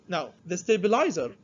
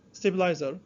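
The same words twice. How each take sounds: First: Said in the usual way. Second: Teacher repeats stabilizer with a rising end; repeated term. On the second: Shown as a demonstration. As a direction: give stabilizer again, lifting at the end.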